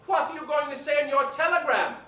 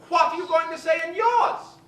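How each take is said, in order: First: Betty Davis asking. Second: High diva voice shouting the question; Betty Davis demanding. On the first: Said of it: "turned to her and said". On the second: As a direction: bark it at her, louder. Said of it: "Betty Davis". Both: Retold or imitated.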